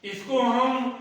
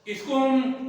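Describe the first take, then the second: No difference in how they are said.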